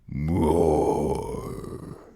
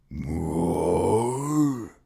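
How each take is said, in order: First: The voice falls at the end. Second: The voice rises at the end.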